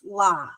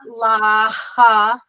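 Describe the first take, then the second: First: The syllable ends cleanly on the vowel. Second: A breathy h sound is added after the vowel. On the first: The speaker calls it right. "it's la" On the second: The speaker calls it wrong. "it's not la ha"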